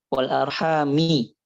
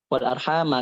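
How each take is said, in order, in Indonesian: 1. Kata ini berakhir dengan vokal 'i'. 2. Kata ini berakhir dengan vokal 'a'. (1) "Tapi Imam Hamzah bacanya wal arhami" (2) "Pakai fathah kan?"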